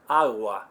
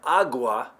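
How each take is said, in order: First: The g is very soft and light. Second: The g is a full, hard stop. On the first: The speaker calls it right. "I'm saying a G, just listen closely" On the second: The speaker calls it wrong. "If you've been saying agua"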